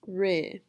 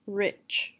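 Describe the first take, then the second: First: RICH cut to "Ri", short i without ch; final sound dropped. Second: Said in the usual way. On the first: Shown as a demonstration. Teacher showing what's left of rich, final sound dropped. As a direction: say "Ri", leaving the ch off. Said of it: "Don't say ch". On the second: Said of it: "deleting the final sound".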